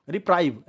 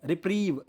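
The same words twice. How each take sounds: First: "रिप्राइव" with an eye vowel in the second syllable; mistaken reading. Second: "रिप्रीव" with a long ee in the second syllable; correct reading. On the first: Teacher showing students the misreading, "रिप्राइव" with an eye sound. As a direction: say "रिप्राइव" rhyming with drive. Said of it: "रिप्राइव नहीं पढ़ते हैं". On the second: Teacher showing students the proper reading, "रिप्रीव" with a long ee. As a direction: say "रिप्रीव" rhyming with sleeve. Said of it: "इसको हम रिप्रीव पढ़ते हैं". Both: Shown as a demonstration.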